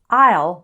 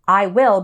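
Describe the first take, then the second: First: The words are joined into one syllable. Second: Both words are said fully and separately. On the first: "becomes I'll"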